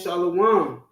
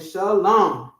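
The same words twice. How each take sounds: First: The word includes an added 'wa' vowel sound. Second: The word has no added 'wa' vowel sound. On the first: This is the later form with an imposed vowel. The speaker calls it wrong. "They weren't saying shalom" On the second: This is the original older form. The speaker calls it right. "They were saying shalom"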